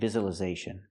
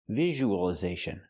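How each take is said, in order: First: The middle consonant is a 'z' sound. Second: The middle consonant is a 'zh' sound. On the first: The speaker calls it wrong. "We don't say visualization. ... So it's not the z sound like zebra" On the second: The speaker calls it right. "We say visual, visualization. ... it's the zh sound"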